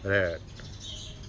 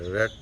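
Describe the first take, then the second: First: The vowel is said long and drawn out. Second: The vowel is said short and clipped. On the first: The speaker calls it right. "ए के ऊपर थोड़ा सा हमने इसको long करना होता है" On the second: The speaker calls it wrong. "रेड तो नहीं कह सकते"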